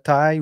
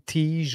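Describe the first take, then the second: First: The name rhymes with 'tie', ending in a glide. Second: The name ends with a soft 'zh' sound. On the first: "je l'appelle taille parce que je pense que c'est la façon de le prononcer" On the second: "ou tige"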